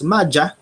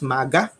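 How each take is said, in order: First: The middle consonant is a j sound. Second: The middle consonant is a hard g sound. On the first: "sometimes pronounced as Madja" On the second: "It's pronounced sometimes as Maga"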